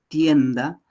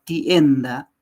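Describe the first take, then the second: The two takes are said the same way.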